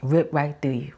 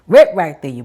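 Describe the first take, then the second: First: Said in the usual way. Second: "Rip" hit louder and sharper; stress on Rip. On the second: Shown as a demonstration. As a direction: punch the word "Rip".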